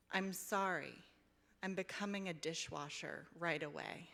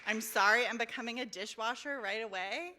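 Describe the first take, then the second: First: Said in the usual way. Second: Loud, high, fast delighted quoting; excited exclamation. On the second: Real, not acted. Reader repeating favorite line to audience, loud excitement. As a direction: burst out with the line like a thrilled fan.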